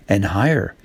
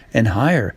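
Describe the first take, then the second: No difference in how they are said.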